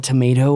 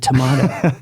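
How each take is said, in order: First: "tomato" said "tuh-MAY-toe"; "tomato" with a long ay in the middle; American tomato. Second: "tomato" said "tuh-MAH-toe"; "tomato" with an open ah in the middle; British-style tomato. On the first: Teasing the cohost's question, "tomato" said "tuh-MAY-toe". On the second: Teasing the cohost's question, "tomato" said "tuh-MAH-toe". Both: Shown as a demonstration. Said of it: "Is it tomato or is it tomato?".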